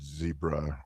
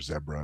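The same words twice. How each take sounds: First: It is said with an American pronunciation. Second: It is said with a British pronunciation.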